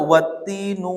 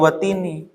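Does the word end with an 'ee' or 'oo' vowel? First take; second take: oo; ee. First: The word ends with an 'oo' vowel. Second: The word ends with an 'ee' vowel. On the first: The speaker calls it wrong. "itu salah" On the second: The speaker calls it right. "pasti dibacanya watini"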